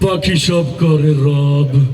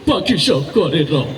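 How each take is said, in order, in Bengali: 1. এটি ভয়ংকর, ভয় দেখানো স্বরে বলা হয়েছে। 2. এটি কান্নাভেজা, কাঁদো-কাঁদো স্বরে বলা হয়েছে। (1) "তোরে দেখলে ভয় আরে" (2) "তুই কান্দিস না"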